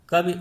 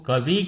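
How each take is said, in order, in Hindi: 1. अंतिम स्वर ह्रस्व है। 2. अंतिम स्वर दीर्घ है। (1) "कवि उच्चारण ना करके" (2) "वा में दीर्घ ध्वनि सुनाई देती है"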